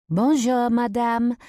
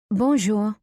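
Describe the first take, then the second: First: High, loud sweet greeting; sweet-voiced French waitress. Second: Higher, louder French reply; returned greeting. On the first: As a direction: greet sweetly in a raised, lilting voice. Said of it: "a sweet voice interrupts us". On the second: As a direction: answer the waitress's greeting, pitched up. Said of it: "I reply". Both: A narrator's reading.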